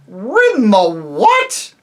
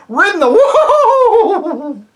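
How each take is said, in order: First: Loud, slow, scornful high disbelief; contemptuous horse shout; contempt. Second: High, loud whinnying neigh through the words; angry horsey neigh; horse neigh. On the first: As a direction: sneer it in disgust. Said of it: "retorted the horse with extreme contempt". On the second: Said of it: "it came out as sort of a neigh". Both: A narrator's reading.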